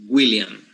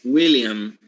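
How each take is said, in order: First: "William" begun with a hard G, "Gwilliam"; G before W. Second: Said in the usual way. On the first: Shown as a demonstration. Teacher showing how most Panamanians call him, G before W. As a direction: start "William" on a "gw" sound. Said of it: "right, with G". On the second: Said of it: "whose name is William".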